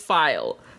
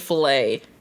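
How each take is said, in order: First: It is said as one syllable rhyming with mile. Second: It ends with an 'ay' sound, like filet. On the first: The speaker calls it right. "So yes, it is file" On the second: The speaker calls it wrong. "Because I say filet"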